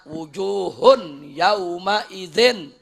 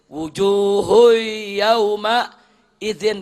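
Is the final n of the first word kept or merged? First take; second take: kept; merged. First: The n sound is pronounced clearly before yauma. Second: The n sound merges into the following y. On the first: The speaker calls it wrong. "Udah nggak ada idghamnya tuh" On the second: The speaker calls it right. "Mestinya wujuhui"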